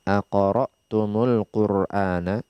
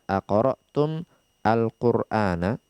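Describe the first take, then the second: First: The words run together with an added u sound. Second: The words are split apart with a clear break. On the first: The speaker calls it right. "asalnya kita sambung" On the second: The speaker calls it wrong. "kita tidak memisah-misah seperti ini"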